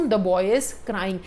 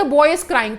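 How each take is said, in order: First: Very slow, lower and softer; slow, low dictation. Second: Said in the usual way. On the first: Shown as a demonstration. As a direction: let the sentence sink slowly and quietly. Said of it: "एक example देखिए". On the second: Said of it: "अब हम बोल रहे हैं कि".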